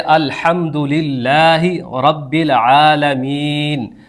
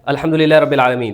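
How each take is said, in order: First: It is recited slowly. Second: It is recited quickly.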